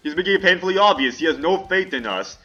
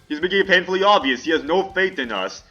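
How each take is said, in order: First: It is read in a YouTube Shorts AI voice. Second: The same.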